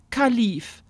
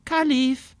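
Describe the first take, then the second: First: Matter-of-fact, falling name; a simple statement of the name; aunt naming the bird. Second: Put-on higher, wondering girl trying out the word Kalif; girl trying the name. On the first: Acted. Aunt tells Alexa the bird's name, matter-of-fact. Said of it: "sagte Tante Irmtraut". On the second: Alexa looks at the bird and tries its name, wondering. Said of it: "Alexa guckte den Nymphensittich an".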